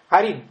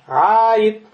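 First: The first vowel is short. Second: The first vowel is held long. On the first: The speaker calls it wrong. "ты не скажешь арид" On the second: The speaker calls it right. "ты скажешь арид"

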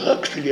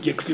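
First: The name starts with a Kh sound. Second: The name starts with a G sound. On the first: This is the form used for the grandson. "его внук именуется Хаксли" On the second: This is the traditional form used for the grandfather. "а деда называют по-прежнему Гексли, по традиции"

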